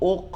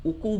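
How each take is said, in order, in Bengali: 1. শেষের k কোনো স্বরধ্বনি ছাড়াই হালকাভাবে ঝাঁকুনি দিয়ে উচ্চারিত হয়। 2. শেষের k-এর পরে একটি পূর্ণ স্বরধ্বনি যোগ করা হয়। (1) "হালকা কলকলা হবে" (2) "উকু বলা যাবে না কিন্তু"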